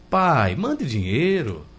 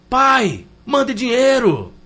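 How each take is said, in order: First: It sounds like a gentle, polite request. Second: It sounds like a rude, demanding order.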